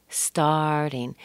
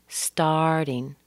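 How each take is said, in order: Both takes have the same delivery.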